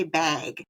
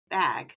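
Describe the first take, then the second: First: Bag with a long drawn vowel, like "baig"; Wisconsin bag. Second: Bag with a short flat "a"; standard American bag. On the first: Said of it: "we say bag". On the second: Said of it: "everywhere else, they say bag". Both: Shown as a demonstration.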